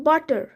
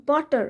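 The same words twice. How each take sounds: The two takes are said the same way.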